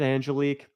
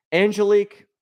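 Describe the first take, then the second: First: Said in the usual way. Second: High sing-song call. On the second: Shown as a demonstration.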